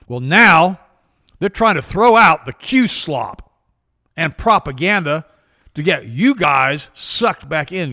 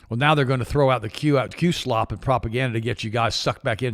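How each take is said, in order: First: It is read very slowly and deliberately. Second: It is read at a normal, quick pace.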